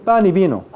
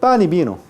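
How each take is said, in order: No difference in how they are said.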